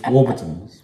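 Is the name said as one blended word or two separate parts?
one word. The name is blended into one single word. The speaker calls it right. "One word. You blend it"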